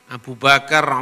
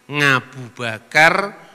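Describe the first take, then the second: First: The name starts directly with a vowel sound. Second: The name starts with an added ng sound. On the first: "Orang Jawa suruh ngomong huruf ain kan sulit" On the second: "Orang Jawa suruh ngomong huruf ain kan sulit"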